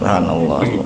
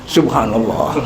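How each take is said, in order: First: It sounds relaxed and calm. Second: It sounds like a pained complaint.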